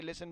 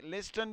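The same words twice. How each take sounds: First: لسن said with the t silent, lis-sen, softer. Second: لسٹن said with the t sounded, lis-ten; t pronounced. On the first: Teacher showing students the other way to say listen, with a silent t. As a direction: drop the t in لسن. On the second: Teacher showing students one way to say listen, with the t sounded. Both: Shown as a demonstration. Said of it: "دو طریقوں سے ہم بول سکتے ہیں".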